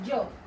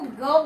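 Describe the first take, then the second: First: It begins with a soft j sound. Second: It begins with a hard g sound. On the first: The speaker calls it right. "जो शुद्ध उच्चारण होता है इसका ये होता है, और इसको हम ज बोलते हैं" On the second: The speaker calls it wrong. "इसको ग बोलते हैं, ... लेकिन ये उच्चारण गलत होता है"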